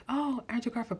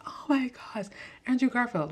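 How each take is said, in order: First: Said in the usual way. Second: Higher, gushing fan squeal; hammed-up starstruck fan; mock fangirl gush. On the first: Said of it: "I was like". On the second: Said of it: "personally wasn't like".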